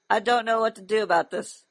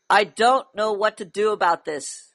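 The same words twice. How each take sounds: First: It is said quietly and weakly. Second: It is said louder, with more volume. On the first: The speaker calls it wrong. "Speak up. I can't hear you" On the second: The speaker calls it right. "That's better"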